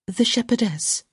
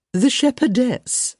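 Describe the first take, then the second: First: Higher-pitched aside, at normal volume; explanatory. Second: High, slow society-lady prompt; supply it helpfully, pitched up and drawn out. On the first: Young lady prompting her companion, explanatory. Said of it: "with an explanatory". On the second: Mother reminding a guest of her daughter's part, helpful. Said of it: "Lady Plainsworth said helpfully". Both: A narrator's reading.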